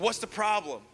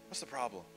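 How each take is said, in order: First: It sounds indignant and complaining. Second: It sounds gentle and caring.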